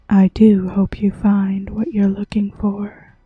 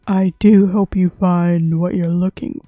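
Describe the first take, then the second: First: It is said in a soft voice. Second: It is said in a deep voice.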